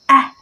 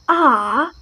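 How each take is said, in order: First: The vowel is shorter and not drawn out. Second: The vowel is long and drawn out. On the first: "But Americans say ah" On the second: "the British pronounces like ah ... the long vowel sound"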